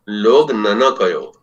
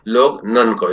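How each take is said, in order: First: The middle sounds are two separate syllables. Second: The middle sounds run together as one syllable. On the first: The speaker calls it right. "ये होना चाहिए" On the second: The speaker calls it wrong. "ये न का भी कोई अर्थ नहीं"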